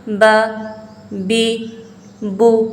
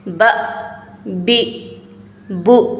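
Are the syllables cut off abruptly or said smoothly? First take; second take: smooth; abrupt. First: The syllables are said smoothly, without a jerk. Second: The syllables are cut off with an abrupt jerk. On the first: The speaker calls it right. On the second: The speaker calls it wrong.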